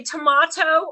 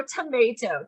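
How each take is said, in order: First: "tomato" with an ah in the middle; tomato as tuh-MAH-toe. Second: "tomato" with an ay in the middle; tomato as tuh-MAY-toe. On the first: Trainer contrasting pronunciations, "tomato" as tuh-MAH-toe. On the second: Trainer contrasting pronunciations, "tomato" as tuh-MAY-toe. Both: Shown as a demonstration. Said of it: "Do you say tomato or tomato".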